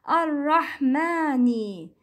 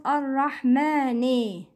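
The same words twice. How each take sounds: First: Ar-Rahmani ending in "nee"; full kasra. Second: Ar-Rahmani ending like "nay"; incomplete kasra. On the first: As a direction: complete the final i of Ar-Rahmani. (Ar-Rahmani with a pure ee ending) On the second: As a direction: open the end of Ar-Rahmani to eh. (Ar-Rahmani said as Rahmane) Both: Shown as a demonstration. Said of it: "It's not Ar-Rahmani".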